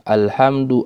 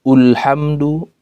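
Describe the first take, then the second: First: The word begins with an a vowel. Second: The word begins with a u vowel. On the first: The speaker calls it right. "harus dibaca fat dengan harokat fat fathah" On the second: The speaker calls it wrong. "atau tidak dibaca dhamma"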